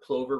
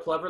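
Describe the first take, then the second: First: The first vowel is a long 'oh' sound. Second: The first vowel is a short 'uh' sound. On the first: This is the pronunciation the speaker's organization uses. "we at SFBBO are plover rovers" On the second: This is the pronunciation some other people use. "Some people are plover lovers"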